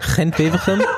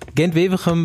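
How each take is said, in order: First: Gent starts with a throaty ch sound. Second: Gent starts with a hard G sound. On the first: The speaker calls it right. "kannst du das bitte bei dem Gent auch machen?" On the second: The speaker calls it wrong. "Kannst du mal aufhören, das so auszusprechen?"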